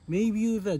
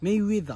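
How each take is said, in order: First: The middle syllable is said as byu. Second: The middle syllable is said as we. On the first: The speaker calls it wrong. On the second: The speaker calls it right.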